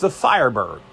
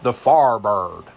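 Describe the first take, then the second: First: It is said in a plain, standard accent. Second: It is said in a thick Virginia accent.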